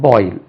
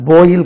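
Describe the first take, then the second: First: Put-on "boil" as "boy-il", rounded oi glide; corrected boil. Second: "boil" in the rejected way; the mistaken vowel in "boil"; wrong boil. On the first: Teacher corrects learners, "boil" with a rounded oi glide. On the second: Teacher rejects a mispronunciation for learners, "boil" said the faulty way. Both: Shown as a demonstration. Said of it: "அந்த boil கிடையாது".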